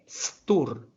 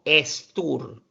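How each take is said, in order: First: The word starts directly with the s sound. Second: An extra e sound comes before the s. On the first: The speaker calls it right. "sino que Stur" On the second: The speaker calls it wrong. "no Estur"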